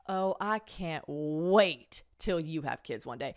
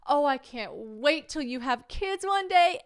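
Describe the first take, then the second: First: It sounds spiteful and threatening. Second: It sounds warm and loving.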